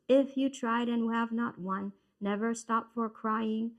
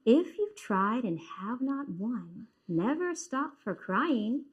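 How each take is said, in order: First: The voice stays flat with no ups and downs. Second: The voice rises and falls with clear pauses. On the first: The speaker calls it wrong. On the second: The speaker calls it right. "does that sound a lot better?"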